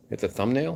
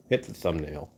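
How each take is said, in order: First: Rising question on "thumbnail". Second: Said in the usual way. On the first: Real, not acted. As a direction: query "thumbnail" with a higher pitch, lifting at the end. Questions his own wording.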